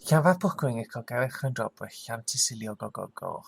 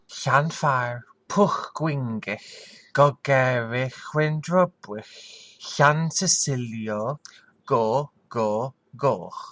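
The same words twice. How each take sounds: First: The name is said at a faster pace. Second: The name is said at a slower pace.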